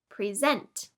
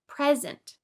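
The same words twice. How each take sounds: First: The stress is on the second syllable. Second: The stress is on the first syllable. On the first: It is a verb meaning to introduce. "To present is a verb that means to introduce" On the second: It is a noun meaning a gift. "A present is a noun meaning a gift"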